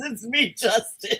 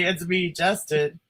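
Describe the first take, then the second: First: Imitating Justin. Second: Slow deadpan self-intro; drawn-out mock introduction; mock announcement. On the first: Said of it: "He says". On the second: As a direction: announce the name slowly like it matters. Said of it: "So he has to say".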